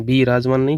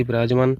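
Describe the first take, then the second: First: बी राजमान with long split-off bee; wrong form. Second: विराजमान with short first i, bi-raajmaan; correct form. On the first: Teacher rejecting a misspelling, long bee in बी राजमान. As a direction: stretch बी into bee before राजमान. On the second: Teacher giving the correct spelling, short bi in विराजमान. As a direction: keep the opening i of विराजमान short and joined. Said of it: "छोटी की मात्रा से बनाइए". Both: Shown as a demonstration.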